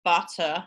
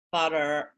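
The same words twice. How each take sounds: First: British English butter, non-rhotic. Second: Butter with an R-coloured er at the end; American butter. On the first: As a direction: say butter the Southern British way, dropping the R. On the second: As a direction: say butter the North American way, R attached. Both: Shown as a demonstration. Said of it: "the difference between".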